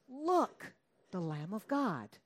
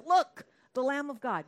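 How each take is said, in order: First: Proclaiming John. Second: Loud, high proclamation from the preacher; a prophet's ringing cry, much louder; calling out. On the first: John the Baptist proclaiming Jesus. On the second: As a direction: shout it out like a prophet pointing. John the Baptist calls out again. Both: Acted.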